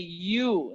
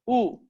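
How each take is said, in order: First: The vowel starts with a y-glide sound. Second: The vowel is a plain u without glide. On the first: The speaker calls it wrong. "They say you instead of u" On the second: The speaker calls it right. "instead of u"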